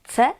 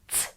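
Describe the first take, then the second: First: The letter is said as its full name. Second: The letter is said as its bare sound. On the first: This is how the letter is named when spelling. "When we spell, we say c" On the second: This is how the letter sounds when reading words. "the sound when we read is c"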